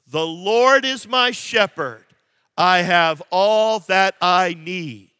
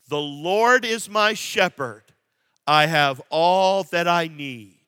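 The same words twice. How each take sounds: First: It is read with more gusto and energy. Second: It is read with ordinary, moderate energy.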